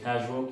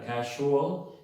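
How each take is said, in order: First: The word is said in a relaxed native way. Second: The word is said in a careful, learner-expected way. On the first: "dice casual, que es lo normal" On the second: "ustedes están esperando que el nativo diga casual"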